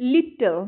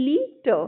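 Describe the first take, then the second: First: Said in the usual way. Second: লিটল split into two beats, first drawn out; teacher breaking লিটল into its two syllables. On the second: Shown as a demonstration. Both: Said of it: "দুটো syllable".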